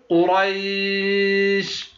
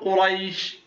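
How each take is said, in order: First: The long vowel is held for six counts. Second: The long vowel is held for two counts.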